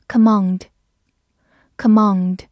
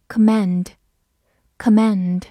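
First: "Command" with a long "ah" in the second syllable; "Command" with a broad British A; non-American pronunciation. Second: "command" with the short A of "cat"; American "command" with a front A vowel; American pronunciation. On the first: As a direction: say "Command" the British way, like "kuh-mahnd". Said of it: "美式发音读作". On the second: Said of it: "美式发音读作command". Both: Shown as a demonstration.

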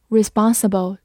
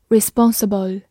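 First: "responsible" in an American accent, open "ah" in "spon"; American pronunciation. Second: Said in the usual way. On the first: Shown as a demonstration. Teacher showing learners the American accent on "responsible". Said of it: "或者美式发音".

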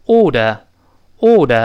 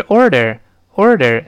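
First: Put-on British "old" for order, no r sounds; slow British "aw-duh", tongue uncurled; British pronunciation. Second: "order" with curled r in both syllables; American-style "order", both r's sounded; rhotic pronunciation. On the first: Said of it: "英式呢发音". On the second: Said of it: "前后都要卷舌的不好读". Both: Shown as a demonstration.

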